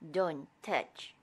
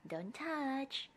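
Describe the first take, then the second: First: It sounds stern and firm, like a warning. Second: It sounds sweet and gentle, with no warning. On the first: It warns the child away from danger. The speaker calls it right. "It would definitely work better to prevent the kids from touching a dangerous thing" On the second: It carries no real warning. The speaker calls it wrong. "It is so lovely, and it loses all the warnings"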